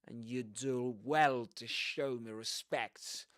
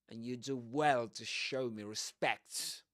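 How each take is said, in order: The two takes are said the same way.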